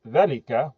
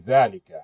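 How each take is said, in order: First: The first vowel is short, without the alif. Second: The first vowel is long, with the alif. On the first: The speaker calls it wrong. "we don't say ذَلِكَ" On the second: The speaker calls it right. "we say ذَلِكَ"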